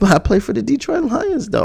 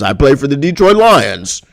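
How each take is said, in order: First: It is said in a meek, pleading way. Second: It is said in an arrogant, boastful way.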